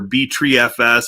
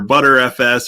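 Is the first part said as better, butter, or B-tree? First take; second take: B-tree; butter. First: The first part sounds like "B-tree". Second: The first part sounds like "butter". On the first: "however you want to uh, pronounce that" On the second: "however you want to uh, pronounce that"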